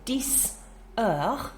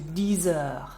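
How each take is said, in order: First: The x of dix is a hissing S sound. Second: The x of dix is a buzzing Z sound.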